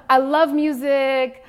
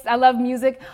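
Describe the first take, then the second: First: Slow emphatic declaration. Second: Said in the usual way. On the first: Shown as a demonstration. Speaker to students, restating her love of music slowly.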